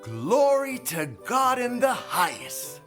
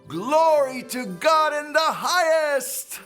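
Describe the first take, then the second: First: It is said at a softer volume. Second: It is said at a louder volume.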